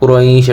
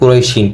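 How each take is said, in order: First: The word ends on the sh sound. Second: The word ends with an added -in sound. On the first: The speaker calls it right. "কুরাইশ এটা সঠিক উচ্চারণ" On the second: The speaker calls it wrong. "আমরা অনেকে বলি কিন্তু কুরাইশিন, কিন্তু এটা কিন্তু সঠিক উচ্চারণ না"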